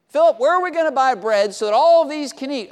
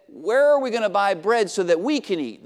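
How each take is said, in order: First: "all" pushed up and louder, "all of these"; stress on all. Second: Said in the usual way. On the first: Shown as a demonstration. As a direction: lean hard on "all" in "all of these can eat". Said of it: "but that's not what Jesus was asking". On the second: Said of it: "it would not have been unusual if Jesus would have said".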